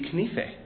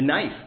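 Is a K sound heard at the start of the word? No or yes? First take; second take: Yes; No. First: The word starts with a K sound, final vowel voiced. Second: The word starts with an N sound, no K. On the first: This is how the word was said in older English. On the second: This is how the word is said today.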